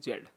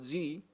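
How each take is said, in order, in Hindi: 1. यह अक्षर 'zed' की तरह बोला जाता है। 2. यह अक्षर 'jee' की तरह बोला जाता है। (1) "सो जेड हम बोलेंगे जेड" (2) "कुछ लोग जेड को प्रोनाउंस करते हैं जी"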